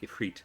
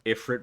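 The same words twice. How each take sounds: First: The name is said with its standard pronunciation. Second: The name is said to sound like 'if it'. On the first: The speaker calls it right. "or technically Ifrit" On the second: The speaker calls it wrong. "the joke only works if you mispronounce the name"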